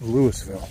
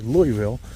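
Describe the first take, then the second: First: The name is said the Ohio way. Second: The name is said the Kentucky way. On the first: "here we pronounce it as Louisville" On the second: "in Kentucky they pronounce it Louisville"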